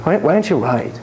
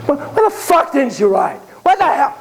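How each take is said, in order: First: Said in the usual way. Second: Angry, high-pitched outburst; acted furious questioning, pitched way up; going off. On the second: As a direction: suddenly blow up at the boy. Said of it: "He starts going off".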